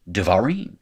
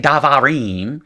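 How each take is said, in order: First: The first vowel is reduced to a schwa. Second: The first vowel is a full open a. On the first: The speaker calls it right. "you just say naturally devarim" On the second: The speaker calls it wrong. "You can't say davarim"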